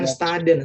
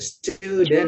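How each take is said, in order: First: The vowel after 'st' is not a 'u'. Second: The vowel after 'st' is a 'u'. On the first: The speaker calls it wrong. "Bukan student" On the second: The speaker calls it right. "pakai u"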